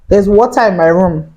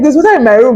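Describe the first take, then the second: First: It is said in a calm tone. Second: It is said in a panicked tone.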